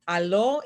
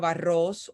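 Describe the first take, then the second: First: The middle consonant sounds like an l. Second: The middle consonant is a trilled r. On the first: "the way we replace the R for the L" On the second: "instead of"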